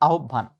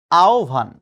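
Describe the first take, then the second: First: আহ্বান mispronounced with a doubled b; a-HOB-ban for আহ্বান, the mistaken way; wrong pronunciation. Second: আহ্বান pronounced AO-bhan; firm, loud ao-bhan for আহ্বান; correct pronunciation. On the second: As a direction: say আহ্বান loudly as ao-bhan, gliding from a to o. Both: Shown as a demonstration. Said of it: "not আহ্বান".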